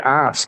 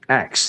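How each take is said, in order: First: The word ends with an sk sound. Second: The word ends with a ks sound. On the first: The speaker calls it right. "It's ask" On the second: The speaker calls it wrong. "you said ax"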